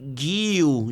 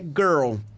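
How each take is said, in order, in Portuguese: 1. Ela é falada com sons do português. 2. Ela é falada com sons do inglês. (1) "vai falar Gil, ... ela vai tentar ler com o fonema do português" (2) "Garota é girl"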